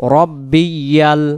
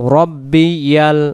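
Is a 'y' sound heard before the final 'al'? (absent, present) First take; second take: present; present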